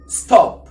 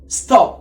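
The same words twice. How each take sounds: The two takes are said the same way.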